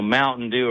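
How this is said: It is said in a Minnesota accent. The speaker calls it wrong. "Just doesn't sound as good as like in the Minnesota accent"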